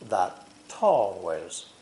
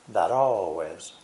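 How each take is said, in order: First: The T is a full, clearly released T. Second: The T is a quick flap, like a soft D. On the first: The speaker calls it wrong. "Americans usually do not say that always" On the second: The speaker calls it right. "We use the flap T instead"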